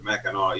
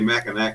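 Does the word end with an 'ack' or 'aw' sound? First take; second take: aw; ack. First: The word ends with an aw sound. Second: The word ends with an ack sound. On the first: The speaker calls it right. "but it's the Mackinac, even though it's N A C it ends in" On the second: The speaker calls it wrong. "everyone wants to say Mackinac Bridge"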